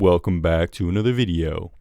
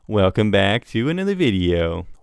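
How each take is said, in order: First: The voice is at a lower, ordinary pitch. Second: The voice is pitched noticeably higher.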